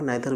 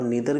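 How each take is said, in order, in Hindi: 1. शब्द की शुरुआत 'nye' आवाज़ से होती है। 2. शब्द की शुरुआत 'nee' आवाज़ से होती है। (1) "नाइदर भी बोल सकते हैं" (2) "नीदर भी बोल सकते हैं"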